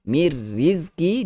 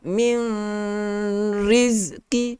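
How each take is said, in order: First: The n merges fully into the following r. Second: The n is sounded separately before the r. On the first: The speaker calls it right. "dengan tanpa gunnah" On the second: The speaker calls it wrong. "tidak boleh"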